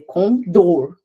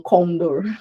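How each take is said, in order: First: The stress is on the last syllable. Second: The stress is on the first syllable. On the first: The speaker calls it right. "a última sílaba é mais forte. É condor" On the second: The speaker calls it wrong. "não condor"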